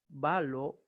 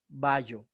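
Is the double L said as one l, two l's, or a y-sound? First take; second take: one l; y-sound. First: The double l sounds as a single l. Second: The double l sounds like a y. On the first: The speaker calls it right. "exactamente como una sola" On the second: The speaker calls it wrong. "jamás vallo"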